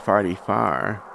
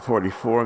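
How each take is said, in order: First: The word 'four' has an 'ar' vowel. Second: The word 'four' has an 'or' vowel.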